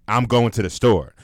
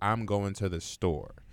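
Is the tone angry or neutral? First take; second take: angry; neutral. First: The sentence is said in a sharp tone. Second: The sentence is said in a calm tone. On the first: The message is read as if the writer is yelling. "and you in a bad mood read that" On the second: The message is a plain statement of plans. "if I wrote to you"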